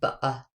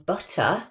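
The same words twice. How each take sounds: First: The middle consonant is a glottal stop. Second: The middle consonant is a clear t sound.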